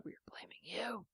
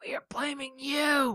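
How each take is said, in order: First: Hushed, breathy warning; whispered threat. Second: Shouted whisper. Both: Acted. Mock threat over song ban.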